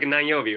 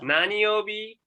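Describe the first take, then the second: First: The first word is shortened to nan. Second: The first word is said fully as nani.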